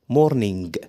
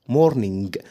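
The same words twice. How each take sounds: No difference in how they are said.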